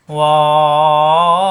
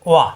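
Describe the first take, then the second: First: wow held very long on one level note; sustained, louder wow, vowel drawn right out. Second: ওয়া said short, with no stretch; brief single-beat ওয়া; short vowel. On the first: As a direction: stretch wow out for four beats, chant-like. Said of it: "চার আলিফ পরিমাণ টান হবে". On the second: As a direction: cut the vowel of ওয়া to one quick beat. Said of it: "জবর আসলে". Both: Shown as a demonstration.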